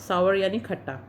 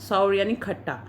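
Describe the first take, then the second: Both takes have the same delivery.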